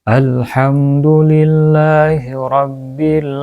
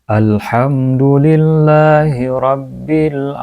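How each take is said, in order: The two takes are said the same way.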